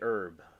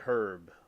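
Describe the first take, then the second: First: The word starts without an H sound. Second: The word starts with an audible H.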